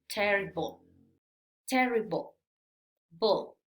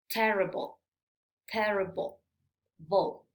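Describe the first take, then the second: The two takes are said the same way.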